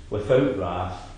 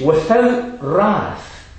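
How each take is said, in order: First: "without wrath" said lower and softer, just summing up; quiet recap. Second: "Without wrath" drawn out slowly, pitched higher, each word weighed; emphatic, slow and higher. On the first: Preacher quietly summing up the three conditions, lower and softer. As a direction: drop "without wrath" low and quiet as a closing list item. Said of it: "Holy hands". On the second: Preacher presenting the second condition for prayer, slow and raised. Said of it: "And it says". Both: Shown as a demonstration.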